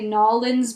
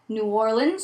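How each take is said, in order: First: The name is squeezed into two short syllables. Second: The name is said in full, with all its syllables. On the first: It is said as a joke. "we tend to say that in more of a joking manner" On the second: It is the normal, serious way to say it. "I'm kind of an expert on that one"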